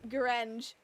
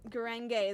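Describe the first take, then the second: First: The ending rhymes with orange. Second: The ending does not rhyme with orange. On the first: The speaker calls it wrong. "like orange" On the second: The speaker calls it right. "is pronounced that way"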